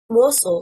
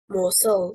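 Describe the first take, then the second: First: The stress is on the first syllable. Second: The stress is on the second syllable. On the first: The speaker calls it right. "stressing on the first syllable" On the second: The speaker calls it wrong. "stressing on the second syllable, is incorrect"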